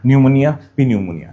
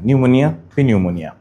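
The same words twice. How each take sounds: The two takes are said the same way.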